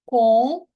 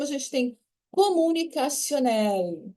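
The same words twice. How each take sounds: First: Comunicationnel said louder, rising at the end; emphatic dictation. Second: Said in the usual way. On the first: Shown as a demonstration. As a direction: call out comunicationnel loudly. ("comunicationnel" dito mais forte, subindo no fim) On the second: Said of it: "A gente vai separar aqui".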